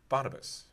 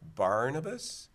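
First: The first syllable has no R sound. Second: The first syllable has an R sound. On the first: The name seems to be spelled with an O. The speaker calls it wrong. "he repeated it back with the accuracy that you would expect" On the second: The name is understood to be spelled with an R. The speaker calls it right. "he needed to hear Tylee say it with an R"

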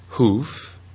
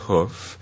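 First: The vowel is long, as in roof. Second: The vowel is short and centralized, as in foot. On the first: This is the older pronunciation. "So it used to be hoof" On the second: This is the pronunciation after the vowel shortened. "it went through centralization to hoof"

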